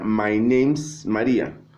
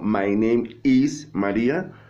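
First: The verb is contracted with the noun. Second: The verb is said as a separate word. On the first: The speaker calls it wrong. "no sería" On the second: The speaker calls it right. "separar la parte de los verbos"

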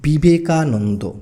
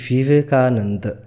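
First: The word begins with a b sound. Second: The word begins with a v sound. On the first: This is the Bengali pronunciation. "আমরা বাংলায় বলছি ... শুধুমাত্র বয়ের মতোই হচ্ছে" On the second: This matches the English spelling with V. "ইংরাজিতে লিখছি তখন ভি দিয়ে শুরু করছি"

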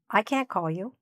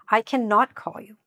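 First: The negative is contracted, with a soft final T. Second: The negative is said in full as two syllables. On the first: "It'll sound like this when North Americans and native speakers are saying it" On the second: "then just say this instead"

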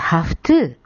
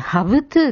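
First: The word ends with a voiceless 'f' sound. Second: The word ends with a voiced 'v' sound. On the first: "負の音になっちゃいます" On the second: "have to って言いにくいので"

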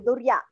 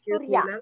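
First: The word begins with a voiced d sound. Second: The word begins with a voiceless t sound. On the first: The speaker calls it wrong. "it is not Durya" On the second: The speaker calls it right. "it is Turya"

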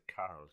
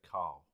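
First: It has an Irish accent with a clear r. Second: It has a South London accent with no r. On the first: "they pronounce it Carl because they're Irish" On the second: "I've got a South London accent. So when I say my own name, I say Carl"

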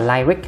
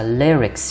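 First: The first syllable has an 'eye' vowel. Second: The first syllable has a short 'i' vowel. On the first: The speaker calls it wrong. "chứ không phải là lyric ha. Cái gì bạn hay đọc thành like với ly" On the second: The speaker calls it right. "Lyrics nhớ cách đọc đó là lyrics"

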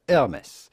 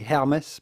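First: The initial H sound is silent. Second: The initial H sound is pronounced. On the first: The speaker calls it right. "the H at the beginning of Hermès is silent" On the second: The speaker calls it wrong. "do not say Hermès"

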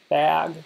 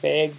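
First: Bag is said with a general American accent. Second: Bag is said with a Wisconsin accent. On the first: "other people will say like bag" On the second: "I'll say like bag"

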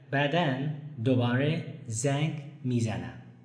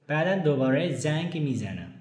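First: It is said slowly. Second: It is said at normal speed.

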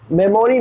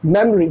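First: The middle 'o' vowel is fully pronounced. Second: The middle 'o' vowel is dropped. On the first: The speaker calls it wrong. "मेमोरी नहीं" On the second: The speaker calls it right. "ओ हो गया silent"

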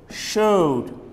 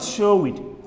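First: The word ends with a plain 'd' sound. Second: The word ends with an extra 'id' syllable. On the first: The speaker calls it right. "You should say showed" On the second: The speaker calls it wrong. "not show it"

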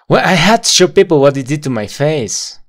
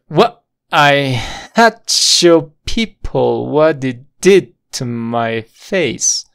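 First: The sentence is spoken a bit faster. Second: The sentence is spoken very slowly and smoothly. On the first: "Un poco más rápido" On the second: "Todo junto y muy lento sonaría algo así"

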